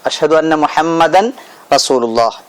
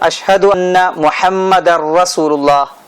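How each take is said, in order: First: The n is pronounced separately before the r. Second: The n merges into a doubled r sound. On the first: The speaker calls it wrong. "എന്നാലും അവന്റെ അത്തഹിയാത്ത് ബാത്തിലാണ്" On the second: The speaker calls it right. "എന്ന് തന്നെ പറയണം"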